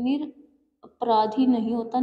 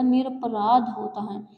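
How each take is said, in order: First: Slow निरपराधी with a rising नहीं; wrong form named. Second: Slow निरपराध, ending on -ध without -ी; correct form. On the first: Teacher rejects the wrong word slowly. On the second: Teacher states the correct word slowly and firmly. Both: Shown as a demonstration.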